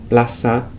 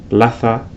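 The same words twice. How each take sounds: Both takes have the same delivery.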